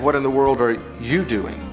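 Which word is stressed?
you. The stress falls on the word you. It is about what this particular person is doing. "We could make it personal"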